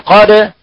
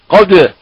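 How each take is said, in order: First: The vowel is open without rounding the lips. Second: The vowel is rounded with moving lips. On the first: The speaker calls it right. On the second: The speaker calls it wrong.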